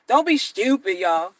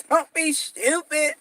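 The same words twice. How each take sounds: First: Jess Hilarious impression. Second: Drawn-out catchphrase. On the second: Retold or imitated. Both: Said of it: "That's how she say stupid".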